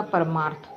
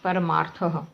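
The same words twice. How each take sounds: First: परमार्थ ending on a plain थ with no breath after; Hindi pronunciation. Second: परमार्थः ending in a breathy h echo after थ; Sanskrit visarga. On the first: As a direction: say परमार्थ the Hindi way, without visarga. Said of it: "विसर्ग हटा देंगे तो हिंदी का हो जाएगा". (परमार्थ हिंदी उच्चारण में, बिना विसर्ग के) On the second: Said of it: "विसर्ग लगाएंगे तो संस्कृत का हो गया". (परमार्थः संस्कृत उच्चारण में, अंत में विसर्ग की हल्की 'ह' ध्वनि के साथ) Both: Shown as a demonstration.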